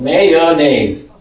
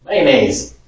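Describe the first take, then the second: First: "Mayonnaise" in three syllables, may-o-naise. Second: "mayonnaise" clipped to two syllables, man-aise. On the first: Teacher showing the reddish-area "Mayonnaise". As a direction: say "Mayonnaise" fully, falling. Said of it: "it's three syllables". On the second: Teacher showing the blue-area "mayonnaise". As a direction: squeeze "mayonnaise" short. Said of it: "If you're in the blue area". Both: Shown as a demonstration.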